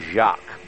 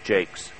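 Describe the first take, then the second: First: The surname is given a French-style pronunciation. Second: The surname is given an English-style pronunciation. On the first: This is the speaker's instinctive reading of the name. "I would want to say Ben Jacques" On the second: This is how the driver himself probably says it. "he probably pronounces it as Jakes"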